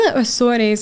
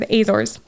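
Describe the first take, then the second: First: The name is said in a Portuguese way. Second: The name is said in an English way.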